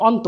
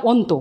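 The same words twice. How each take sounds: First: অন্ত as "awnto"; correct open vowel. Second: অন্ত as "onto"; closed "o" at the start of অন্ত; wrong closed vowel. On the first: Teacher shows what is said, অন্ত with open "aw". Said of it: "মানে, উচ্চারণও করছি". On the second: Teacher shows what is never said, অন্ত with closed "o". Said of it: "কখনো বলছি না". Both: Shown as a demonstration.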